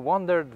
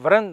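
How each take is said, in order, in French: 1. Le nom commence par un son W. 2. Le nom commence par un son V. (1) "ça se dit Wandered" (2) "je fais un imbécile, euh, sur le nom en disant Vren"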